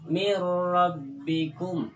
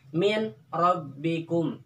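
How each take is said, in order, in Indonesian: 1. Bunyi n melebur sepenuhnya ke dalam r yang mengikutinya. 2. Bunyi n diucapkan dengan jelas sebelum r. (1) "itu bacaannya idgham" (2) "jangan dibaca izhar ya, seperti"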